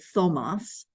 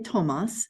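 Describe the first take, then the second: First: The name begins with a soft th sound. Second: The name begins with a plain t sound. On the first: The speaker calls it wrong. "We don't say Thomas" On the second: The speaker calls it right. "We say Thomas"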